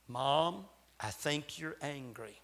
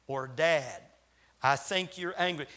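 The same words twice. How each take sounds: First: Put-on soft, hushed child's confession; whispered. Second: Said in the usual way. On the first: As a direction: lean in and hush it, like a secret in the ear. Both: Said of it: "whisper in our ear and say".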